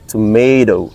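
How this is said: It is American, with the t sounding like d. "in other countries like United States of America, they would say or they pronounce exact like this"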